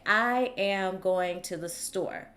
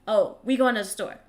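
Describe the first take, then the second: First: Each word is said clearly and separately. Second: The words are run together and slurred.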